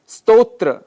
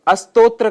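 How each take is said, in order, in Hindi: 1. यह सीधे 'st' संयुक्ताक्षर से शुरू होता है। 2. 'st' से पहले एक अतिरिक्त 'a' स्वर आता है।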